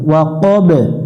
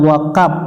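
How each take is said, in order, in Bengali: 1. শেষের b একটু প্রতিধ্বনি নিয়ে উচ্চারিত হয়। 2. শেষের ব্যঞ্জনটি সাধারণ p-এর মতো শোনায়। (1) "একটু প্রতিধ্বনি সৃষ্টি করতে হবে" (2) "ওয়াকাপ পড়া যাবে না"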